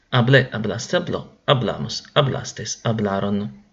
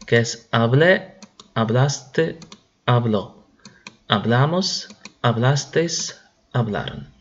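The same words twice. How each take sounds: First: Forms run together in one quick falling chain; "Hablé, hablaste, habló" rattled off fluently, falling at the end; quick run-through. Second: Each form said alone with a rising tune; "hablé, hablaste, habló" set out one by one, slowly, every form lifted at the end; slow drill recital. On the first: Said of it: "Vamos a repasar". (repaso seguido y fluido, con entonación descendente) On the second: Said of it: "y ponemos". (conjugación lenta, cada forma aislada y con entonación ascendente) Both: Shown as a demonstration.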